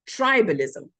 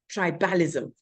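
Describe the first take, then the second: First: The stress is on the first syllable. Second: The stress is on a later syllable. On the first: The speaker calls it right. "So the stress is on the first syllable" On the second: The speaker calls it wrong. "Actually, it's not"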